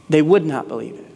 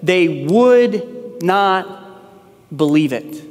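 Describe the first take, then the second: First: Said in the usual way. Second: Slow, heavy "They would not believe it" with "would" held long; stress on would not. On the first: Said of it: "notice what it says". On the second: Shown as a demonstration. Pastor reading verse eleven to the congregation, stressing "would not". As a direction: lean on "would not", drawing "They would not" out slowly. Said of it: "notice what it says in verse number eleven".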